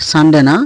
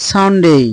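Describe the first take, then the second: First: "সানডে" with short de, then না; wrong pronunciation. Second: "সানডে" as san-dey, higher; corrected pronunciation. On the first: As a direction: dismiss quick, unglided "সানডে". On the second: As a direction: model "সানডে" high, with a long "day". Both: Shown as a demonstration.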